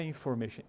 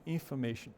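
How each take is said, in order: First: INFORMATION as "in-FOR-mation", O sounded; wrong full O. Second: INFORMATION as "in-fuh-MAY-shun", softly reduced O; weak "uh" in place of the O in INFORMATION; correct schwa. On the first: Teacher showing what it is not, full O. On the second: Teacher giving the correction, schwa replacing O. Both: Shown as a demonstration. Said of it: "Porque não é information".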